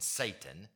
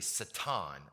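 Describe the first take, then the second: First: The word is pronounced the usual English way. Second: The word is pronounced the Hebrew way. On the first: The speaker calls it wrong. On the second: The speaker calls it right.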